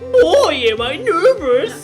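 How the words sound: It is spoken in a put-on youthful voice. "No, not that young"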